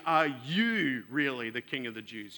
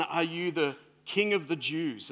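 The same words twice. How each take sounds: First: Doubting lean on "you", the rest said evenly; stress on you. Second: Said in the usual way. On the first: Shown as a demonstration. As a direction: press the word "you" as if you can hardly believe it. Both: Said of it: "And the emphasis there is on the word "you".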